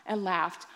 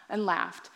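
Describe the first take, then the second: No difference in how they are said.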